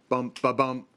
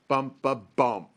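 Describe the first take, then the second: First: All beats stay at the same pitch. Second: The final beat drops lower in pitch. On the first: It imitates a widely split second heart sound. "both of the sounds are the same" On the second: It imitates a third heart sound. "the S three is lower in pitch"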